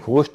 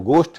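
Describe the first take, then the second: First: It begins with a breathy gh sound. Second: It begins with a plain g sound. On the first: The speaker calls it wrong. "घोष्ट नहीं है" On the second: The speaker calls it right. "भूत के लिए अंग्रेजी में शब्द है वो गोष्ठ है"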